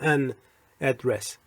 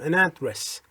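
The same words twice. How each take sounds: First: The two words are said separately, not joined. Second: The two words are joined like one word. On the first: The speaker calls it wrong. "نمیگم" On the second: The speaker calls it right. "میگم an address ... انگار یک کلمه است"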